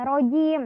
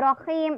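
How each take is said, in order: First: The middle consonant is a j sound. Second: The middle consonant is an h sound. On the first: The speaker calls it wrong. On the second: The speaker calls it right.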